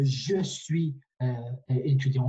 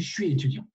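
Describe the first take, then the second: First: "je suis" as two separate slow words; full careful pronunciation. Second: "je suis" fused into shwee; fast casual contraction. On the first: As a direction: sound out "je suis" fully, with a voiced je. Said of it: "on dit pas". (« je suis » bien détaché, chaque mot entier) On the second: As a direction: run "je suis" together as one syllable starting with sh. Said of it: "quand on parle vite". (« je suis » contracté en « chuis ») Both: Shown as a demonstration.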